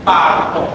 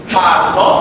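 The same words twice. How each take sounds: The two takes are said the same way.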